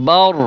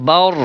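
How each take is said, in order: No difference in how they are said.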